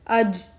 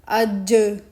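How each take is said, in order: First: The final j sound is cut off abruptly. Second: The final j sound is released with a bounce. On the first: The speaker calls it wrong. "Don't finish the sound of the Jim sakin abruptly like" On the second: The speaker calls it right. "but read it like"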